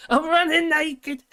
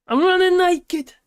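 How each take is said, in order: First: High, slow, loud comic shout; hammed-up movie quote yell; Will Ferrell quote. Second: High, slow, shouted comic yell; Will Ferrell impression. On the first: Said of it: "He did it". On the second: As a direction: belt it out like a goofy comedian. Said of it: "Was that Will Ferrell?".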